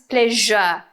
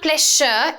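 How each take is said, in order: First: The middle consonant matches the one in 'television'. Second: The middle consonant differs from the one in 'television'. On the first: The speaker calls it right. "like television, pleasure" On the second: The speaker calls it wrong. "It's not pleasure"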